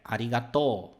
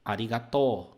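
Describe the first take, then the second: Both takes have the same delivery.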